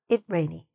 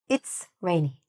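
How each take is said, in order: First: The 's' sound after it is dropped. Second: The 's' sound after it is clearly heard. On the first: The speaker calls it wrong. "not it rainy" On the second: The speaker calls it right. "you're saying it's rainy"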